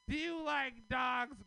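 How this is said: It is asked in a serious, probing tone.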